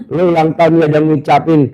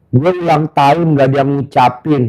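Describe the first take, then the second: First: Fast, teasing throw-back of the complaint; quick sarcastic repeat; mocking echo. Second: Quoting the guest through a laugh; amused, half-laughing complaint; laughing retelling. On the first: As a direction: rattle it back at him, mocking. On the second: Retold or imitated. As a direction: tell the guest's complaint while chuckling. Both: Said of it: "Gue bilang gitu".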